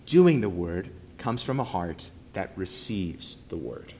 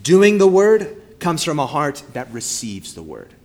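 First: Quieter, fading to near silence on word; hushed echo of the main point; softer repeat. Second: Said in the usual way. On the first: Shown as a demonstration. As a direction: let it sink in, softly.

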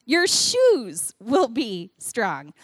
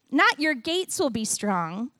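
First: Very slow, "shoes" held and leaned on, falling at the end; stress on shoes. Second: "Not" punched, then "gates will be strong" lifted up like a question; stress on not. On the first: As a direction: drag it out slowly, landing hard on "shoes". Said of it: "They say the word shoes". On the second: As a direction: hit "Not" hard, rising at the end. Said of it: "don't say the word gates". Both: Shown as a demonstration.

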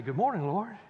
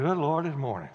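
First: Glad greeting. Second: Grumpy groan. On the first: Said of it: "get up this morning and say". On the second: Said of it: "get up in the morning and say". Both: Retold or imitated.

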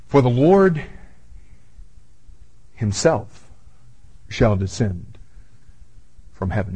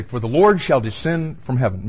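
First: "himself" set apart by long pauses, low; pauses around HIMSELF. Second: Said in the usual way. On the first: Shown as a demonstration. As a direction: read it haltingly, isolating "himself". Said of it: "why did he put the word himself in there". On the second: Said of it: "Why didn't he just say".

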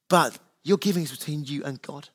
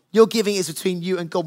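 First: "your giving is between you and God" said softer, stress on "your"; quieter emphatic restatement. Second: Said in the usual way. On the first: Shown as a demonstration. Pastor repeats it to the congregation, softly stressing "your". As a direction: lean in gently on "your".

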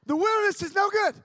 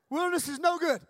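First: Loud high proclamation; emphatic declaration. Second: Said in the usual way. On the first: Shown as a demonstration. Preaching to the youth camp, loud declaration. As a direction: proclaim it to the back row. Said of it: "repeated slogan, first loud". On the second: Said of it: "repeated slogan".

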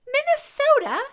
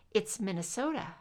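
First: Put-on Minnesota announced very high and loud by a little boy; child announcing. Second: Said in the usual way. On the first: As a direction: proclaim Minnesota like a bossy five-year-old. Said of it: "he announced to her". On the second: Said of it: "Scully told him helpfully".

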